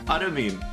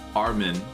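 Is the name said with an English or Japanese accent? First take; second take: Japanese; English. First: The name is said with a Japanese accent. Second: The name is said with an English accent.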